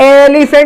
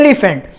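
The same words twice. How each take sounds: First: The first vowel is stretched long. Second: The first vowel is said short. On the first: The speaker calls it wrong. "यहां पर एलिफेंट नहीं बोलते हैं" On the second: The speaker calls it right. "उसको लंबा खींचा नहीं गया है, मींस यहां पर उसको धीरे से बोल दिया"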